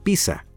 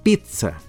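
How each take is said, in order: First: The middle consonant is a plain S sound. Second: The middle consonant is a relaxed D sound. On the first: The speaker calls it wrong. "muchas personas creen que la palabra italiana pizza se debe pronunciar pizza. Pero no es así" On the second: The speaker calls it right. "o más relajadamente, pizza, con D"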